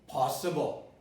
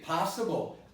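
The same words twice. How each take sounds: First: The first vowel is a rounded 'aw' sound. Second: The first vowel is an open 'ah' sound. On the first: "I could have said possible. But I don't say possible" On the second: "my dialect says possible. It's an ah"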